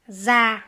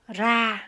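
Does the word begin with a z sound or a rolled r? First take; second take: z sound; rolled r. First: It begins with a buzzing z sound. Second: It begins with a lightly rolled r. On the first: This is the northern pronunciation. "Dans le nord, je vais prononcer za" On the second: This is the southern pronunciation. "Dans le sud, ra"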